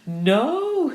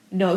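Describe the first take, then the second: First: High, loud, drawn-out cry of disbelief; astonished exclamation. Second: Said in the usual way. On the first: A narrator's reading. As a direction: exclaim it in amazed chorus. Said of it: "said all the ladies together". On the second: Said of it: "said Georgie without emphasis".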